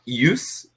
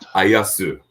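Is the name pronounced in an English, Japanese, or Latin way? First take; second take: Latin; Japanese. First: The name is said with Latin-style sounds. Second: The name is said with Japanese-style sounds. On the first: "which is like the traditional Latin pronunciation of it" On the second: "And here in Japan, it's"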